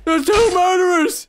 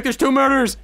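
First: High, loud, drawn-out imitation of alarm; hammed-up alarm cry; mock panicked shout. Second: Slightly raised voice imitating startled players; first, restrained mock outcry; mild mock alarm. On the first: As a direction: yell it as the panicking players. Voicing players, louder repeat. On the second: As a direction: report it with a touch of panic. Voicing players, first take.

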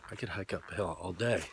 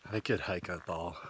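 First: Said in the usual way. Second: Talking round a lollipop; words muffled by a lollipop in the mouth; sucking a lollipop. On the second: Real, not acted. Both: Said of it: "can't talk with my lollipop".

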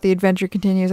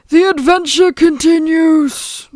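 First: Said in the usual way. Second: High, loud, drawn-out proclamation; hammed-up adventure title voice; mock grand announcer. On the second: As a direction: announce it slowly with playful grandeur. Performs title line in put-on voice.

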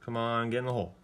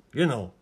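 First: Said in the usual way. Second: Louder, urgent shout at the ball; loud urging. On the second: Real, not acted. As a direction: yell it at the ball to drop.

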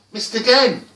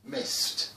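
First: High, loud cry of frustration; loud, exasperated exclamation. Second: Said in the usual way. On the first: A narrator's reading. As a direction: burst out at yet another failure. Second failed attempt, rising frustration.

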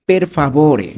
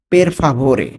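The two takes are said the same way.

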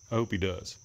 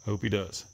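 No difference in how they are said.

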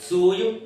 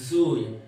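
First: സൂയും said higher and louder with a rising end; pronunciation demo. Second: സൂയും said at normal pitch with a falling end; pronunciation demo. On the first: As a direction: lift സൂയും up, louder, like a question. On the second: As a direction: let സൂയും drop and close it. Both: Shown as a demonstration. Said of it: "ദൂക്ക് വരും സു ആയിരിക്കണം".

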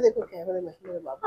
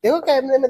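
First: Soft coaxing. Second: Said in the usual way. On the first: Real, not acted. Father softly coaxes baby to look at camera. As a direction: hush it down to a gentle coax.

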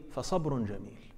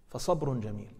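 Both takes have the same delivery.

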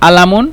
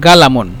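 First: আলামুন begun on a bare vowel, no q; teacher's dialect demo of আলামুন with a silent q; dialect pronunciation. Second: গালামুন with a hard g for q; teacher's g-variant of গালামুন; dialect pronunciation. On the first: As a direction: drop the opening q in আলামুন. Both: Shown as a demonstration. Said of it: "ওরা যখন উচ্চারণ করবে তখন এভাবে উচ্চারণ করবে".

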